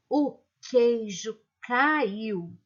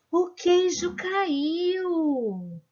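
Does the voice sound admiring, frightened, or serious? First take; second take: serious; admiring. First: It is said in a flat, serious, almost angry tone. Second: It is said in an amazed, admiring tone. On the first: "de um jeito muito sério" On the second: "Vou ler esta frase de um jeito admirado"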